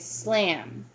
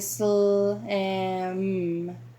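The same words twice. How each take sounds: First: The sounds are blended smoothly without pauses. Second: The sounds are separated by short pauses. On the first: The speaker calls it right. "We just say slam" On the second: The speaker calls it wrong. "we don't say slam, and we don't pause"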